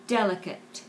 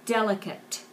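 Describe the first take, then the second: First: The final T is clearly pronounced. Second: The same.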